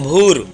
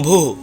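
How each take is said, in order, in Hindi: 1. शब्द का अंत 'र' की ध्वनि से होता है। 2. शब्द का अंत फूंक वाली 'ह' की ध्वनि से होता है।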